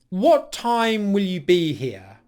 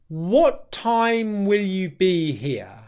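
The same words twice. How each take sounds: First: The question is said at normal speed. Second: The question is said more slowly.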